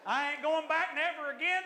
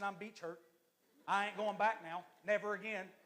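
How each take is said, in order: First: High, loud mock outrage; hammed-up vow of boycott, rising at the end; mock indignant refusal. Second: Understated mock grievance at usual pitch; mock hurt refusal. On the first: Louder repeat of mock refusal. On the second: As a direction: sulk lightly, swearing off the place. Mock complaint of beach hurt.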